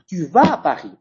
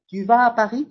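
First: The pitch falls at the end, as an exclamation. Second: The pitch stays level, as a statement.

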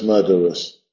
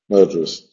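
First: All three syllables are fully pronounced. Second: The middle vowel is dropped, giving two syllables. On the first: The speaker calls it wrong. "no es murderous" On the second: The speaker calls it right. "Murderous tiene lesión"

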